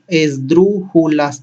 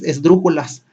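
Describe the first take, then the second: First: ESDRÚJULAS slowly split as es-drú-ju-las; slow teacher's breakdown of "Esdrújulas"; syllable by syllable. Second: Said in the usual way. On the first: Shown as a demonstration. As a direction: separate all four syllables of "Esdrújulas". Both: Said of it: "Vamos a ver cuántas sílabas tiene".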